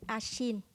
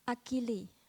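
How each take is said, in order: First: The name is said French-style, without final s. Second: The name is said English-style, with final s. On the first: "we pronounce it as a French people"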